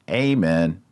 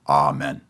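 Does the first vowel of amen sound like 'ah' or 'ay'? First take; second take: ay; ah. First: The first vowel sounds like 'ay'. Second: The first vowel sounds like 'ah'. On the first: The speaker calls it wrong. "Not amen" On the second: The speaker calls it right. "the long A in Latin is ah. That's how you say it"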